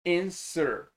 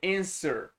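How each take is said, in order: Both takes have the same delivery.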